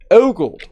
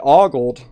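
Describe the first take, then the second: First: The first vowel is a long 'o'. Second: The first vowel sounds like 'aw'. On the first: "But you started with ogled" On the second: "Both of those started with aw, which is how I said it"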